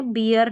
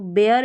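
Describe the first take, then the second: First: बियर with an ee glide, "bee-er"; wrong vowel, ee-er. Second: बेयर with an ay vowel, "bay-er"; correct vowel, ay-er. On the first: Teacher ruling out a misreading for learners, wrong pronunciation बियर. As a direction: say बियर with ee where ay belongs. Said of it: "बियर नहीं है". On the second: Teacher giving the correct pronunciation to learners, careful model बेयर. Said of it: "बेयर इसका सही उच्चारण है". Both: Shown as a demonstration.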